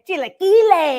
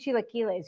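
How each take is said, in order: First: The word is said with full, lively energy. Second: The word is said flatly with little energy. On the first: The speaker calls it right. "You have to say chilaquiles. ... give it your all like that" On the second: The speaker calls it wrong. "you can't just say like"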